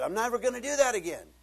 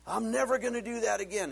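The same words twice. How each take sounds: First: Higher, louder, faster promise; mock vow repeated. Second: Mock vow. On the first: Preacher voicing the man's repeated vow to quit, fast and loud. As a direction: rattle off the same empty vow. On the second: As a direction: swear it off like a desperate man. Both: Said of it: "And you said".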